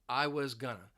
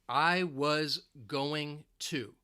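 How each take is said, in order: First: Going to is reduced to gonna. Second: Going to is said as two full words.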